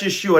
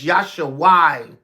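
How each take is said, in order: First: The name begins with a 'Yeh' sound. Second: The name begins with a 'Yah' sound. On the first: This is the modern Hebrew form. "That they pronounce it in the modern Hebrew" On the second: This is the ancient Paleo Hebrew form. "but it's Yahshua in the ancient Paleo"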